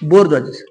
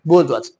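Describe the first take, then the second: First: The word is said in full with every syllable. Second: The word is said quickly with the ending dropped. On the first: "त्या शब्दाचा उच्चार असा आहे बघा असा उच्चार होतो" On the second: "फास्ट म्हणताना ब्रिटिश स्पीकिंग प्रमाणे बोर्जवाज असं म्हणतात"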